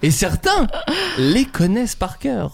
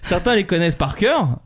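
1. Elle est prononcée très lentement et distinctement. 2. Elle est prononcée à un rythme normal, plutôt rapide. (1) "je vais te redire très lentement" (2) "vous allez tellement vite"

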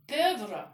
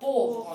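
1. Гласный здесь не обычный звук O. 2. Гласный здесь обычный звук O. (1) "Не pauvre" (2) "а pauvre. ... там звук О. А, ю даю звук О"

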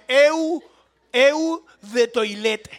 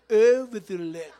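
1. Se lee con sonidos de letras españolas. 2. Se dice con pronunciación al estilo francés. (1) "Pero no se pronuncia así" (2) "es, a ver, así"

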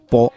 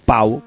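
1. La vocal es una 'o' simple y única. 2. La vocal se desliza como 'ow' en 'cow'.

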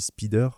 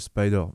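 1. Le mot a une prononciation française. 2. Le mot a une prononciation anglaise. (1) "on dit Spider" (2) "au lieu de Spider"

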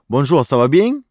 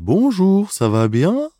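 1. Говорится с марсельским акцентом. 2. Говорится медленно, с швейцарским акцентом. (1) "А если человек из, допустим, Марселя" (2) "А если из Швейцарии"

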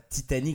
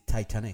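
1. Le mot se prononce à la française. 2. Le mot se prononce à l'anglaise. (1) "c'est pas Titanic" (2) "c'est Titanic"

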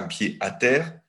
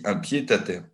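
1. Le d de pied est muet, sans liaison. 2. Le d de pied est lié au mot suivant. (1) "je ne dis pas un pied à terre" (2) "Je fais la liaison avec le pied"

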